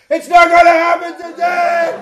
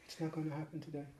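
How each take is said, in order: First: It is said loudly. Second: It is said quietly.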